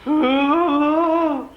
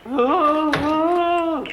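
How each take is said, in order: The two takes are said the same way.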